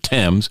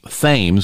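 First: The name is said with a British pronunciation. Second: The name is said with an American pronunciation.

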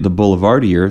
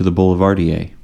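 First: It is said in a local Midwestern way. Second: It is said the way others have recommended. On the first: This is the older, homegrown way of saying the name. The speaker calls it wrong. "Raytown as fuck" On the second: This is the way other people have been saying the name. The speaker calls it right. "I'd rather say it that way"

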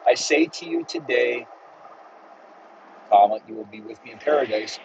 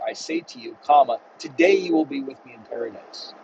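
First: The pause comes after the word today. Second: The pause comes before the word today.

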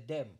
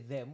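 First: It is said in a Jamaican Patois way. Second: It is said in a standard English way. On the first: "we say them" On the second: "we don't say them"

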